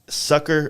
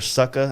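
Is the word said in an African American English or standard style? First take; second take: standard; African American English. First: It is said in a standard American pronunciation. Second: It is said in an African American English style.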